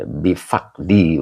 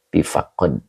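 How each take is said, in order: First: Bifakdi, slow, with the ending -kdi; correct reading. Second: Bifakod, said with the ending -kod; wrong reading. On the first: Teacher corrects the viewer, slow careful bifakdi. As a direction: bifakdi said slowly as fak-di. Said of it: "ini bukan bifakod". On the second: Viewer's mistaken reading read out, bifakod. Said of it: "bukan bifakod". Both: Shown as a demonstration.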